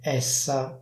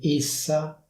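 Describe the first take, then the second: First: The e is pronounced as an open vowel. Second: The e is pronounced as a closed vowel. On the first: This is how it is said in the speaker's area. "con la e aperta" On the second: This is the official pronunciation. "con la e chiusa"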